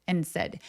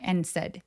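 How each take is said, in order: The two takes are said the same way.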